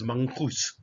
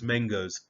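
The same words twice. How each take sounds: First: The word is pronounced in an Afrikaans-influenced way. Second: The word is pronounced in a standard English way. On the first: The speaker calls it wrong. "my with my knowledge of Afrikaans, which I also have, I am forever tempted to pronounce this as mangoes" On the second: The speaker calls it right. "But please, you don't do it. It's mangoes"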